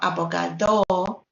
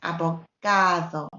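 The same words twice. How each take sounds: First: The stress is not on the second-to-last syllable. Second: The stress is on the second-to-last syllable. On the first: The speaker calls it wrong. "not abogado" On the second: The speaker calls it right. "So it's abogado"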